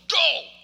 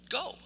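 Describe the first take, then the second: First: It is said in a stern, commanding tone. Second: It is said in a gentle, reassuring tone.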